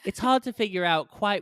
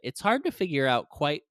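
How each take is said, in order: First: It is read in a put-on British accent. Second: It is read in the speaker's ordinary American accent.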